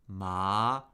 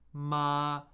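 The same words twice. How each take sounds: First: The pitch rises from middle to high. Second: The pitch stays high and level.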